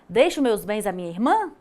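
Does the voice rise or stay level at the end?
rise. It ends with a rising question tune.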